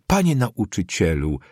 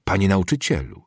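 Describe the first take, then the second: First: Mildly agitated pupil addressing a teacher; a touch of bold defiance; agitated, defiant. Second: Mildly sharp pupil addressing a teacher. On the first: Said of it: "mówił Figa głosem wzburzonym, drżącym, ale do najwyższego stopnia zuchwałym". (z lekkim wzburzeniem, zuchwale) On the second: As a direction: say it with restrained sharpness. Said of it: "rzekł ostro". (lekko ostrym tonem) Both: A narrator's reading.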